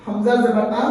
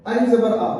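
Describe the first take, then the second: First: हमजा जबर आ with a short crisp आ, not stretched; correct hamza reading. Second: Put-on अलिफ जबर आ read as plain alif, the mistake children make; wrong reading demo. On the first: Teacher showing children the right way, short unstretched vowel. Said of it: "हमने इसको हमजा पढ़ना है।". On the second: Teacher showing children the common error, deliberately wrong reading. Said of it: "जो कि गलत है।". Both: Shown as a demonstration.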